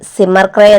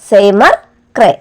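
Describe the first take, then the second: First: The name is said quickly with a shortened vowel. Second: The name is said carefully with a full vowel.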